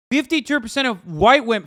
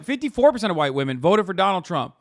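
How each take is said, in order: First: Louder, stressing Fifty-two; emphatic repeat. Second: Said in the usual way. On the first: Real, not acted. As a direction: hammer the figure home.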